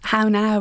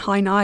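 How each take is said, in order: First: It is said in an English accent. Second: It is said in a Belfast accent.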